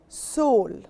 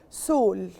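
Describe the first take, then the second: First: It is pronounced the English way. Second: It is pronounced the English way.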